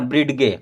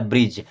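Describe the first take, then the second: First: It is said in two syllables, ending in a hard g. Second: It is said in one syllable, ending in a j sound. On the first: The speaker calls it wrong. "जो कि गलत है" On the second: The speaker calls it right. "इसे पढ़ना क्या? ब्रिज"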